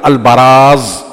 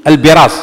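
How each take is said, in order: First: "البراز" said slowly as al-baraaz; "البراز" with ba, last vowel drawn out; fatha on the ba. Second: "البراز" said as al-biraz; "البراز" with bi, not ba; kasra on the ba. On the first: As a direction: say "البراز" with a short a after the b. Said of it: "مضبوطة بفتح الباء لا بكسرها". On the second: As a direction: say "البراز" with a short i after the b. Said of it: "لفظة البراز بكسر الباء". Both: Shown as a demonstration.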